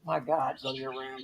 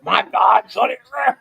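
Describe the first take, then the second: First: Low, quiet demonic growl; deep creepy demon voice. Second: Loud shouted demon voice; demon bellow. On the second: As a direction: bellow it like a monster. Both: Pretend. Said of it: "That's my demon voice".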